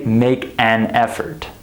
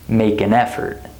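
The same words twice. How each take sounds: First: The word 'an' is said fully and clearly. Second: The word 'an' is reduced, sounding like 'in'. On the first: The speaker calls it wrong. "We don't say make an effort. No native speaker says that" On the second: The speaker calls it right. "We say make an effort"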